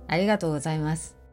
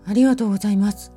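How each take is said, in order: First: The voice sounds disgusted. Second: The voice sounds afraid. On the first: "嫌悪。" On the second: "恐怖、"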